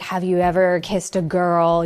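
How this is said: It is asked in a pushy, aggressive way.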